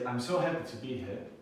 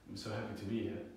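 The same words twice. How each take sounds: First: The voice sounds lively and pleased. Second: The voice sounds flat and unenthusiastic. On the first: The speaker is glad to be here. "it sounds like I'm happy to be here" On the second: The speaker is not really glad to be here. "it doesn't sound like I'm that happy"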